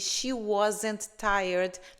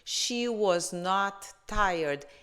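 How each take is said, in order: First: The negative is contracted into one word. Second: The negative is said as two full words. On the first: "na forma contraída" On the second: "eu simplesmente acrescento not"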